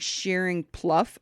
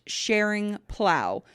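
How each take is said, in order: First: The second word ends like 'cuff'. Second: The second word ends like 'cow'. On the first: The speaker calls it wrong. "I've been saying Shearing Pluff" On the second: The speaker calls it right. "Apparently, it's pronounced Sharing Plow"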